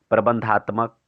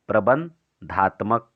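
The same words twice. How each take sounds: First: Said in the usual way. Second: प्रबंधात्मक slowly, split as प्रबन–धात्मक; dictation pace. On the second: Shown as a demonstration. Teacher repeating the term for students to write down, प्रबंधात्मक in slow dictation. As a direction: break प्रबंधात्मक in two with a pause after Praban.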